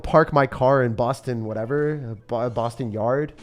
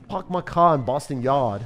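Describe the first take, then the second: First: Said in the usual way. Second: Slow, R-less Boston accent; amateur Boston accent, dropping the Rs; attempted Boston accent. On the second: Shown as a demonstration. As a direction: have a go at a bad Boston accent. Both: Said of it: "I don't have the Boston accent".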